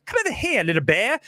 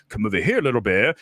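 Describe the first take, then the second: First: Squeaky high leap on Come over here, then back down; the re-recorded take, jumping high at the start; the redubbed version with a high squeak; redone Doolittle voice. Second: Lower, heavier take on the bear line; the first take, pitched low; the version before the redo; original Doolittle voice. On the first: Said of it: "And now I'm gonna go". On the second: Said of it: "Before we were like". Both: Shown as a demonstration.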